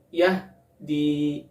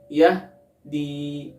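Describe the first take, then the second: Both takes have the same delivery.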